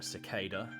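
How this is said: It is said with an American pronunciation. "in the U S it's more of a cicada"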